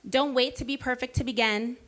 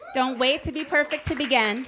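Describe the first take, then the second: First: It is said at normal speaking volume. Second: It is said at a louder volume.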